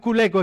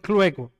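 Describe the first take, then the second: First: The word begins with a 'cul' syllable. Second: The word begins with a 'clu' cluster. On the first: The speaker calls it wrong. "mal dicho, pero lo dicen culeco" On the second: The speaker calls it right. "es clueco"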